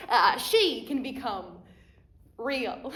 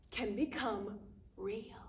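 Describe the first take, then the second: First: "she" hit louder, then "real" set apart after a pause; stress on she. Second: Slow, whispery and soft; hushed wonder. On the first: Restates the line with correction. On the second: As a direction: let it sink almost to a whisper, slowly. Magician's hushed stage line, then restated. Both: Acted.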